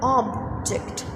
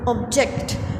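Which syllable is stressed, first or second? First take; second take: first; second. First: The stress is on the first syllable. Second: The stress is on the second syllable. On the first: It is used as a noun. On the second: It means to disagree with something.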